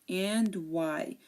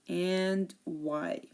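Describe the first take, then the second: The two takes are said the same way.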